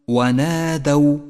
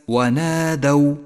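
Both takes have the same delivery.

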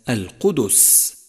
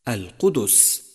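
The two takes are said the same way.

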